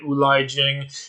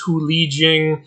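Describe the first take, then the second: First: The name begins with a vowel sound. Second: The name begins with an H sound. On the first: The speaker calls it wrong. "I was pronouncing Hu Li Jing wrong. I was calling it Ulai Jing" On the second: The speaker calls it right. "Apparently it's Hu Li Jing"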